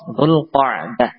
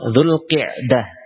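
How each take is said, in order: First: The vowel after the q is 'a'. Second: The vowel after the q is 'i'. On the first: The speaker calls it right. "yang lebih fasih dengan memfathah huruf qaf" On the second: The speaker calls it wrong. "boleh ya dibaca dengan kasrah"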